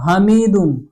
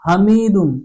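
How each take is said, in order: No difference in how they are said.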